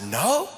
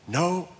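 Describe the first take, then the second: First: Sharply rising questioning no; incredulous echo. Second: Said in the usual way. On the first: Retold or imitated. Preacher retelling his reply to finance person, incredulous. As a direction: echo the answer as a disbelieving question.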